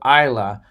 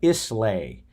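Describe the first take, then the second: First: The word ends with a 'luh' sound. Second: The word ends with a 'lay' sound. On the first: The speaker calls it right. "it's pronounced the Isle of Isla" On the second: The speaker calls it wrong. "I thought it was the Isle of Islay"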